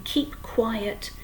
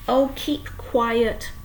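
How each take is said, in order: First: Put-on girl near tears pleading hush; tearful. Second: Loud, slow, stretched holler; tearful girl hollering hush. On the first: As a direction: ask again close to tears. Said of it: "her eyes were brimming with tears". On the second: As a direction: yell at them to stop. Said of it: "hollered Fern". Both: A narrator's reading.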